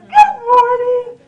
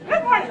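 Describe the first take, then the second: First: It is said in a cheerful, bright way. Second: It is said in a grumpy, sullen way.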